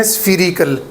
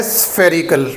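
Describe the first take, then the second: First: स्फीरिकल with a long ee as in sphere; mispronounced spherical. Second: स्फेरिकल with a short e sound; correct spherical. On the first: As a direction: say स्फीरिकल as "sfee-rical". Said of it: "लोग पढ़ लेते हैं". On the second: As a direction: say स्फेरिकल as "SFER-ical". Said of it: "ए की sound है". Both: Shown as a demonstration.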